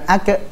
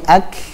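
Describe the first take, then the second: First: The final k is released with a bouncing echo. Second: The final k is released with flowing breath. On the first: The speaker calls it wrong. "Jangan dikol-kolahkan ya. Bukan" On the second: The speaker calls it right. "nafas yang mengalir"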